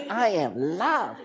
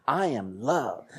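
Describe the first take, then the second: First: Put-on higher, slow little girl's voice. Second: Said in the usual way. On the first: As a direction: imitate a small girl saying it to the mirror. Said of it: "She's like".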